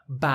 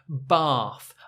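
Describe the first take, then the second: First: The vowel is a short flat a. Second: The vowel is a long open ah. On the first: It sounds northern. "that short A sound" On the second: It sounds southern and more upper class. "A with the colon on the left"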